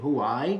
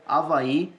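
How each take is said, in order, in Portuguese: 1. A palavra começa com um som de h audível. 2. A palavra começa diretamente com uma vogal. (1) "americanizar a coisa e dizer Hawaii" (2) "esse H a gente não pronuncia"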